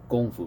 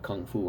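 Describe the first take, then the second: First: It begins with a g sound. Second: It begins with a k sound. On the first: The speaker calls it right. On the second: The speaker calls it wrong.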